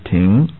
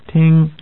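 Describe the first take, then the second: First: The syllable is said with a rising tone. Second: The syllable is said with a level tone. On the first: It means to stop or park. "rising tone" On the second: It means to listen or hear. "level tone"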